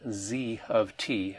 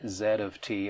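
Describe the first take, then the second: First: The letter is said the American way, zee. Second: The letter is said the non-American way, zed.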